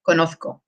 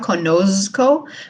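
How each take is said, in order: First: The z is a th sound. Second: The z is a buzzing English z sound. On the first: "Spain Spanish accent, it's like a th" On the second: "we don't make it sound like English z, so it's not conozco"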